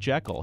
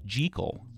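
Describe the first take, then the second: First: The first vowel sounds like 'eh' in 'bed'. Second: The first vowel sounds like 'ee' in 'see'. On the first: The speaker calls it wrong. "not Jekyll" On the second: The speaker calls it right. "as if it were spelled J-E-E-K-I-L-L"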